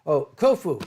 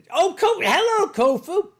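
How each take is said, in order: First: Said in the usual way. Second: High, loud delighted hello; light up as your friend walks in; excited greeting. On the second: Real, not acted. Greeting a newly arrived friend.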